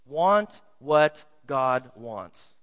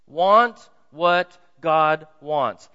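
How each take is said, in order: First: Each word drawn out slow; slow emphatic. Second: Louder, each word drawn out slow; slow loud emphasis. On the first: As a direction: lay every word down slowly, with weight. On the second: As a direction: call it out slowly, driving it home. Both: Shown as a demonstration. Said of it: "Let me say it this way".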